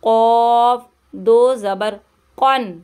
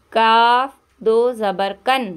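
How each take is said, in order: First: Heavy q set against the thin काफ. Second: काफ said light and thin with a clear front a; thin k for a reading class. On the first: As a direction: make कॉफ heavy and full. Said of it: "इसको मोटा करके पढ़ेंगे". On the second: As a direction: keep काफ light, no rounding. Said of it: "ये बारीक वाला काफ है". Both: Shown as a demonstration.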